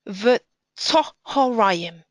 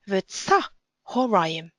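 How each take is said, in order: First: The vowel after tz sounds like 'o'. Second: The vowel after tz sounds like 'a'. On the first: It follows modern Hebrew grammar. "according to modern Hebrew grammar, the words would read"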